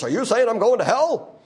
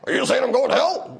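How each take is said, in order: First: A faint hint of Larry King asking a gotcha question; light Larry King imitation. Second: Higher, louder Larry King voice, interviewer's gotcha; Larry King impression. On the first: Preacher mimicking Larry King's gotcha question, barely voiced. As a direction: toss off a half-hearted Larry King. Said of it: "more Larry Kingish voice than I just did". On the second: Preacher doing Larry King's gotcha question to Christians, hammed-up. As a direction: lean in like Larry King springing the trap. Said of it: "that was my Larry King impression".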